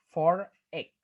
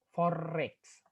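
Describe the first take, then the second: First: "forex" split into two words, "for" and "ex", loud first word; words unlinked. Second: "forex" run together with a drawn-out linking R. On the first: Lecturer showing the words before joining, "forex" said split and louder. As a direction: separate "forex" as "for... ex". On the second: Lecturer showing students the linking R, "forex" said joined. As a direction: join "forex" through a held R sound. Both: Shown as a demonstration. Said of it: "Tapi karena itu disambung".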